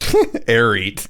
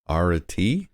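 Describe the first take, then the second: First: The word ends with a 'tay' sound. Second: The word ends with a 'tee' sound. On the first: "That's how a Texan might say it" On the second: "The Greek pronunciation?"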